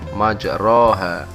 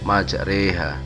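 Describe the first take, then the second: First: The vowel after r is a plain open a. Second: The vowel after r leans toward e. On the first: "lafal majroha" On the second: "dibaca imalah menjadi majreha"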